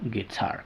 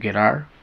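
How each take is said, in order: First: The T is a clear, full T sound. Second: The T is a quick flap, like a soft D. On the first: The speaker calls it right. "con su sonido original" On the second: The speaker calls it wrong. "no puedo decir guitar"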